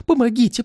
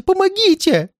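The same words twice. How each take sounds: First: Quick high cry for help; frightened, high-pitched appeal; panicked plea. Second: Extremely high cry for help; terrified, piercing high appeal; desperate plea. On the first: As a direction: call out fearfully, not yet at the peak. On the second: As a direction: shriek for help at the peak of panic. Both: Acted. Old man begs for help.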